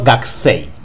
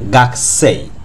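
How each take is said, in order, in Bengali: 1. 'k' এর পরের 'u' বাদ যায়। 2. 'k' এর পরের 'u' বাদ যায়।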